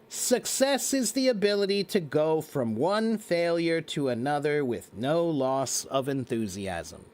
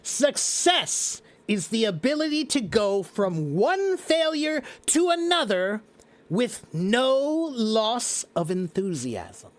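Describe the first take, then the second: First: It is said flatly, with little expression. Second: It is said with lively, expressive energy. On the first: "That's words. I said words" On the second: "Now I said it with magic"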